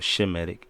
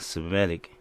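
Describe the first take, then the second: First: The word begins with an sh sound. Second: The word begins with an s sound. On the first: The speaker calls it right. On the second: The speaker calls it wrong.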